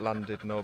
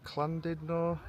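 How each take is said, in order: First: The name is said with English pronunciation. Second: The name is said with Welsh pronunciation. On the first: This is how the visitors choose to say it. "we're going to call it" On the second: This is how local Welsh speakers say it. "if you're Welsh, you pronounce it"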